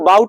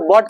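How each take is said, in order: First: The vowel glides like 'ow' in 'out'. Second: The vowel is a plain 'aw' sound. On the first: The speaker calls it wrong. "इसको बाउट नहीं पढ़ेंगे" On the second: The speaker calls it right. "इसको बॉट पढ़ा जाता है"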